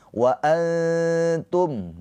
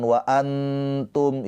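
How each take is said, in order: First: Antum chanted high, n blurred into a long nasal hum; veiled nun. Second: Antum with a crisp, fully sounded n before t; clear nun, wrong way. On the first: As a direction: hide the n in antum, hold it before t. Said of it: "nah disamarkan". (antum dengan nun disamarkan dan ditahan) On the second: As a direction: pronounce the n in antum distinctly. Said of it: "jangan jelas, jangan". (antum dengan nun jelas, cara idhar) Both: Shown as a demonstration.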